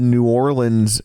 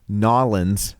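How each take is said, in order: First: The name is said in full, standard form. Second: The name is clipped into a short local form.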